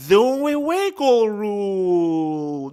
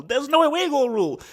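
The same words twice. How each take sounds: First: Loud, very slow, stretched-out words; drawn-out exclamation. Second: Emphatic exclamation. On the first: Analyst recalling a rule change, drawn out loudly. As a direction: stretch every word out loudly. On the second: Repeats the realisation. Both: Real, not acted.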